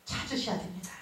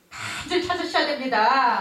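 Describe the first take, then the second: First: 찾으셔야 됩니다 in a soft, unvoiced whisper; hushed whisper of 찾으셔야 됩니다. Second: Said in the usual way. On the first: Shown as a demonstration. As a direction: breathe 찾으셔야 됩니다 as a secret.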